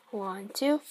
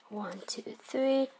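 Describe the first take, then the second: First: Said in the usual way. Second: Whispered count under the breath; whispering. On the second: Real, not acted. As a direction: hush it, counting softly.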